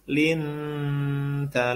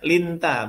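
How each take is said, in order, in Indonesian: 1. Bunyi n tersembunyi dalam dengung sengau. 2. Bunyi n diucapkan penuh dan jelas. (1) "ini ikhfa nih, sama samar nih" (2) "Bukan linta, bukan"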